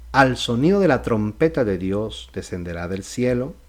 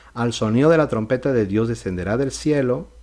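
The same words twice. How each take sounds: No difference in how they are said.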